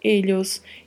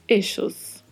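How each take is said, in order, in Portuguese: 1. O duplo L soa como um ly palatal. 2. O duplo L soa como o sh do inglês. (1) "duplo L com som de LH" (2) "duplo L com som de X"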